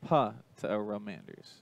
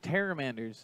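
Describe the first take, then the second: First: The word starts with a short 'puh' sound. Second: The word starts directly with a 't' sound. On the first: The speaker calls it right. "Thank you for correcting me" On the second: The speaker calls it wrong. "I messed up that pronunciation there"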